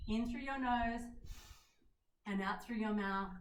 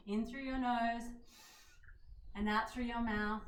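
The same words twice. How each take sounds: The two takes are said the same way.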